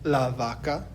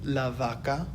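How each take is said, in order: Both takes have the same delivery.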